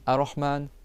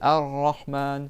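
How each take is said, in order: First: The R sound is short and single. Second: The R sound is held and doubled. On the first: The speaker calls it wrong. "c'est pas" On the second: The speaker calls it right.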